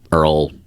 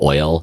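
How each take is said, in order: First: The word sounds like 'earl', with an r-colored vowel. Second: The word sounds like 'oil', with an oy vowel. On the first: It is a regional upstate New York pronunciation. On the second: It is the usual pronunciation.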